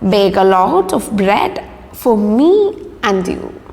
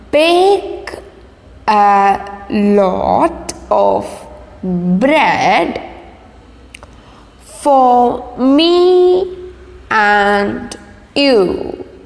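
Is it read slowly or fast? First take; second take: fast; slowly. First: It is read fast. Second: It is read slowly.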